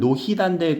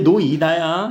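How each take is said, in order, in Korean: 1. h 소리가 둘째 음절로 이어져요. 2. 음절 사이에 h 소리가 안 들려요. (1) "연음시키면 노히단데 그렇게 발음 애들 하는 애들 있더라" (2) "근데 노이다야 이거"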